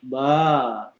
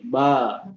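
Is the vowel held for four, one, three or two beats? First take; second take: three; two. First: The vowel is held for three beats. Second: The vowel is held for two beats. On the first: "Kalau tiga harokat" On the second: "Kalau misalnya dua harokat"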